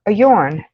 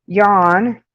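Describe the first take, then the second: First: "yawn" falling with a rounded aw; yawn pronunciation. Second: "Yawn" as yahn, open ah, rising; yarn pronunciation. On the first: Streamer working out both words, rounded aw pronunciation. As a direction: round the vowel in "yawn" and drop it. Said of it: "how to say both". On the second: Streamer showing the yarn word, open ah pronunciation. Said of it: "Like yarn". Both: Shown as a demonstration.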